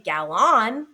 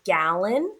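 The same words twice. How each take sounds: First: GALLON said gal-ON with a full second vowel; wrong full vowel. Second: Said in the usual way. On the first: Shown as a demonstration. Teacher showing what we don't say, over-pronounced "gallon". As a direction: stretch "gallon" into gal-ON, no schwa. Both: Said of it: "We don't say gallon".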